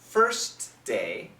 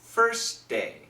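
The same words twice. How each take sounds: First: The T at the end of first is pronounced. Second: The T at the end of first is dropped. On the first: "So perfect pronunciation" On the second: "But typical pronunciation, ... So you don't hear the T"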